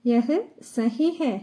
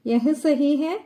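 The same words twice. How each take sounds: First: Slow, deliberate syllable by syllable; slow model phrase. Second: Said in the usual way. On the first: Shown as a demonstration. Teacher modelling Hindi for Malayalam learners, slow and careful. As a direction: spell it out slowly for learners. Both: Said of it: "teacher repeats Hindi phrase".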